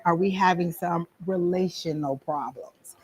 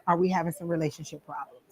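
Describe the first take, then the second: First: Hushed, careful whisper to a sitter; whispered question. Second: Said in the usual way. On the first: Shown as a demonstration. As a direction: whisper it slowly and discreetly. Gently probing a sitter about impotence. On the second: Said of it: "the first time I got the impotency thing".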